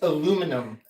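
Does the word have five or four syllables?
four. It has no extra syllable near the end. The speaker calls it right. "It's aluminum"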